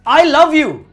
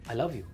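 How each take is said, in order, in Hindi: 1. यह गुस्से की धार के साथ कहा गया है। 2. यह धीरे-धीरे, वज़न के साथ रुककर कहा गया है। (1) "अगर तुम गुस्से में बोल रहे हो" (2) "दैट काइंड ऑफ ठहराव टू इट"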